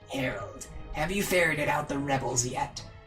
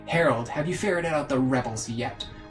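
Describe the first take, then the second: First: It is said in a harsh, throat-straining voice. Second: It is said in an easier, less straining voice.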